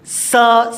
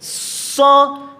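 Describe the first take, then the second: First: The s sound has no whistling hiss. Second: The s sound has a whistling hiss. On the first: The speaker calls it wrong. "tidak ada siulnya, jadi semacam sin ... itu kurang" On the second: The speaker calls it right. "harus kedengaran itu ya, ada siulnya"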